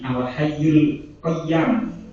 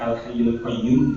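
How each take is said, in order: First: The last word ends with an 'am' sound. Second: The last word ends with an 'oom' sound. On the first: This is a variant reading attributed to an early reciter. "tapi al hayyul qayyam" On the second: This is the common reading. "tidak al hayyul qayyum"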